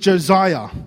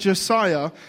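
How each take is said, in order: First: The middle consonant is a z sound. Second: The middle consonant is not a z sound. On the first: The speaker calls it wrong. "there's no Z in my name" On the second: The speaker calls it right. "instead of pronouncing it Josiah"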